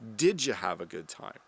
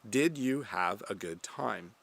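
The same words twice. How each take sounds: First: It is said fast. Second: It is said at normal speed.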